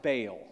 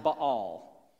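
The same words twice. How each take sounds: First: Baal said as "bale"; Baal with a long "ay" vowel; alternative Baal pronunciation. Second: Baal said as "bah-AHL"; Baal with open "ah" vowels, stress at the end; two-syllable Baal. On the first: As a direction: say Baal as one syllable, like "bale". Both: Shown as a demonstration. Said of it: "Some of you have heard it pronounced".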